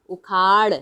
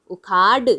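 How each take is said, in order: First: "उखाड़" ending in a retroflex flap; flapped ड़. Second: "उखाड़" ending in a hard stopped ड. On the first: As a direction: flick the tongue to end "उखाड़", no hard d. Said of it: "लेकिन हम क्या बोल रहे हैं". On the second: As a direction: close "उखाड़" on a firm d, no flap. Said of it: "अगर ड होता तो हम बोलते हैं". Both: Shown as a demonstration.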